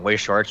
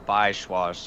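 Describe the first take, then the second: First: The name is said with English-style sounds. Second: The name is said with German-style sounds.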